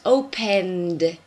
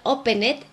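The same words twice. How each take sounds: First: The ending is said as a D sound. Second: The ending is not said as a D sound. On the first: The speaker calls it right. "Can you hear the D?" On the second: The speaker calls it wrong. "is not opened"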